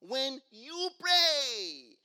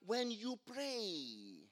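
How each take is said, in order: First: "When you pray" slow and loud, pressing on "you"; loud, slow "When you pray", "you" pressed hard; stress on you. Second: "When you pray" drawn out slowly, weight on "you"; slow, hushed "When you pray" with "you" stressed. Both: Shown as a demonstration. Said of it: "The emphasis is on you".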